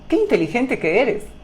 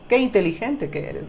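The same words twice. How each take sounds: First: It is said in a sincere, admiring tone. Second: It is said in a sarcastic, mocking tone. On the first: The speaker truly admires the listener's intelligence. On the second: The speaker means the opposite and mocks the listener.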